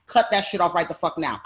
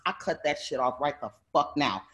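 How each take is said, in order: First: Retold angry order. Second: Said in the usual way. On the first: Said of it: "I go in and I'm like".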